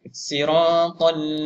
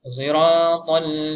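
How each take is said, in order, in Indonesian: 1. Bunyi pertama adalah s yang ringan dan biasa. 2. Bunyi pertama adalah s yang bercampur z. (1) "shad ini dibaca dengan huruf sin" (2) "Shad baca dengan ishmam"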